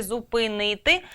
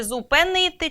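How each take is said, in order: First: "зупинити" with и in the second syllable, zu-py-NY-ty; и variant. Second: "зупинити" with е in the second syllable, zu-pe-NY-ty; е variant. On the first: Teacher offering the other spelling, "зупинити" voiced with и after п. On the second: Teacher offering a doubtful spelling, "зупинити" voiced with е after п. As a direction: say "зупинити" as "зупенити", with a clear е. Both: Shown as a demonstration. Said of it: "чи".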